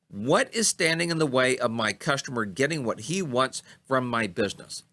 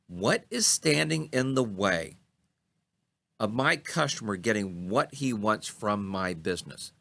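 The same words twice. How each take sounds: First: The sentence is spoken at a normal pace. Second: The sentence is spoken at a slower pace.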